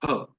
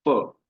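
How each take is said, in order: First: "फ" said as aspirated p, both lips pressed together; right "फ": lips meet, puff of air; correct bilabial ph. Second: "फ" said like English f, teeth on the lower lip; wrong English f. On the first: Teacher models for class the correct lip-closed ph. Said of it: "इसका सही उच्चारण है फ". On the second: Teacher shows class the wrong f, teeth on lip. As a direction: show the mistake: "फ" as a labiodental f. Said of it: "तो फ गलत उच्चारण है". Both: Shown as a demonstration.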